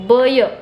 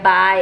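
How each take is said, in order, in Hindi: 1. यह दो अलग अक्षर-ध्वनियों में बोला जाता है। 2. यह एक सहज अक्षर में बोला जाता है। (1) "बी का फोनिक साउंड क्या होता है ब. वाई का य ब य ऐसे कर देते" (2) "बी वाई बाय"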